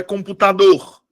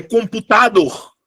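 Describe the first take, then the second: First: "computador" with the stress on DOR; "computador" said as computaDOR, louder on the end; stress on last syllable. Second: "computador" with the stress moved onto TA; "computador" said as compuTAdor, slow and testing; wrong stress. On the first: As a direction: land firmly on the final DOR of "computador". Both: Shown as a demonstration. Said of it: "Qual é a que eu pronuncio com mais força?".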